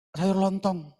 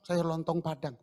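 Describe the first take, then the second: First: Sung out loud and high like a street hawker; vendor's call. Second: Said in the usual way. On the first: Retold or imitated. Street vendor calling out wares.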